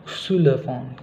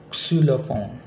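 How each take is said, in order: The two takes are said the same way.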